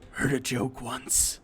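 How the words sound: It is said in a rough put-on character voice.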